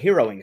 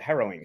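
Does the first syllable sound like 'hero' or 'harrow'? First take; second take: hero; harrow. First: The first syllable sounds like 'hero'. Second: The first syllable sounds like 'harrow'. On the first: The speaker calls it wrong. "It's not a heroing story" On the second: The speaker calls it right. "It's a harrowing story"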